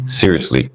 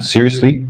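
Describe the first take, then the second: First: "Seriously." dropped much lower, falling; low falling repeat. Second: "Seriously?" as a question, pitched a little up. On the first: Host on people offended by an accent, low falling "Seriously.". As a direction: say "Seriously." as a low, final statement. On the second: Host questioning people offended by an accent, questioning "Seriously?". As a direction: ask "Seriously?" as if in disbelief. Incredulous rhetorical question, then repeated. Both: Real, not acted.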